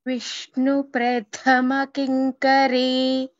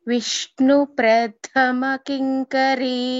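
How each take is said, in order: The two takes are said the same way.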